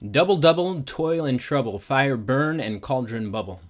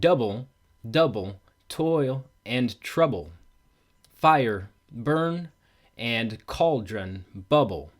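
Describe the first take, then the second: First: The metrical stresses are spoken in a natural way. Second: The metrical stresses are strongly emphasized throughout.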